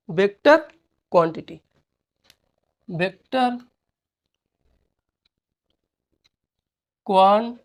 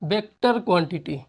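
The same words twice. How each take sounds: First: vector and quantity said apart with long pauses; dictating word by word so students can write. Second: Said in the usual way. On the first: Shown as a demonstration. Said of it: "teacher dictating word by word". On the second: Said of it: "तो यहाँ डालेंगे".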